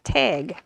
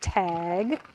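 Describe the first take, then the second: First: The vowel is drawn out as a long A. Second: The vowel is a plain, short A sound. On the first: This is how people in the northern United States say it. "not tag; northern part of the United States, it's T long A G" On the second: This is how people in the middle of the country say it. "this is the middle of the country, and we say tag"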